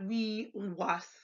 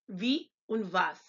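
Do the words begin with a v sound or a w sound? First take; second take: w sound; v sound. First: The words begin with a w sound. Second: The words begin with a v sound. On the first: The speaker calls it wrong. "not wie und was" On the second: The speaker calls it right. "pronounced like the V in Victor"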